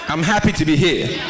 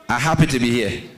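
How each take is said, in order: First: It is said in a standard English accent. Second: It is said in a Liberian English accent.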